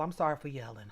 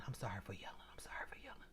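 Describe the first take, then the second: First: Said in the usual way. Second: Tiny, fading whisper; hushed and barely audible; whispered apology. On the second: Real, not acted. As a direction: whisper it to make up for yelling. Hushed apology after yelling.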